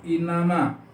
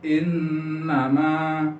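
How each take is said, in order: First: The n sound is short, not held. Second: The n sound is held and lengthened. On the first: The speaker calls it wrong. "Nggak boleh dibaca inama" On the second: The speaker calls it right. "N-nya agak dipanjangkan ya, karena hukum bacaannya gunnah"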